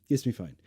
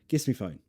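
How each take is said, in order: The two takes are said the same way.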